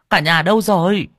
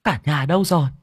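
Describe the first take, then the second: First: Higher, louder calling through the house. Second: Calling out. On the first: Grandmother calls family out, higher and louder. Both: Acted. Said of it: "gọi to".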